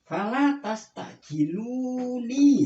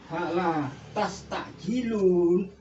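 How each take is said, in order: First: The phrase ends with a final 'ni' syllable. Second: The phrase ends with a bare 'n' sound. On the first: Do not hasten me. The speaker calls it right. "harus dibaca" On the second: A listener may hear the 'la' as a plain negation. The speaker calls it wrong. "pasti dia itu mengatakan lamnya ini lam nafi"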